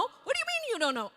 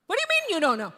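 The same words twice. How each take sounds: First: Much higher, fast and exasperated; escalating husband. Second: Higher and louder, demanding; exasperated husband. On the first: Husband demanding answers from his wife, even more exasperated. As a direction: push the question harder, losing patience. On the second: Husband grilling his wife about her sudden job change, exasperated. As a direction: confront her, fed up. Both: Retold or imitated.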